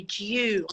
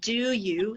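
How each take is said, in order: First: "Do you" run together as "d'you"; native-style merged "Do you", like "dju"; assimilated "Do you". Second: "Do you" as two separate, careful words; unassimilated "Do you". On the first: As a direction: blend "Do you" into one "dyoo" sound. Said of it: "They say". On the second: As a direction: say "Do" and "you" apart, each fully sounded. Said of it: "they don't say". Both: Shown as a demonstration.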